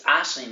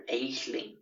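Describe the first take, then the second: First: "Aisling" said as "ASH-lin"; "Aisling" with a short open first vowel, correcting him; corrected name. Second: "Aisling" said wrongly as "AYSH-ling"; "Aisling" with an AY vowel, mimicking the error; mispronounced name. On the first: Shown as a demonstration. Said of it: "you fucking moron". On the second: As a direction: copy his mistaken "Aisling", with a long AY at the start. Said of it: "he still chose to call her".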